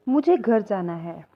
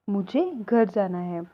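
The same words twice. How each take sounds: The two takes are said the same way.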